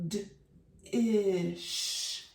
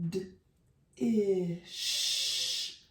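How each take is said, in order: The two takes are said the same way.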